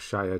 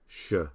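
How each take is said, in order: First: The ending is said fully as 'shire'. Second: The ending is a short 'sh' sound. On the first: The speaker calls it wrong. "Not Shire" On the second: The speaker calls it right. "So S H"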